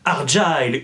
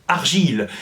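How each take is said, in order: First: The word is said with an English pronunciation. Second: The word is said with a French pronunciation.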